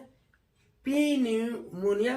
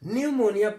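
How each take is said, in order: First: A P sound is heard at the start. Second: No P sound is heard at the start. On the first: The speaker calls it wrong. "पी न्यूमोनिया नहीं पढ़ते" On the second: The speaker calls it right. "न्यूमोनिया पढ़ते हैं"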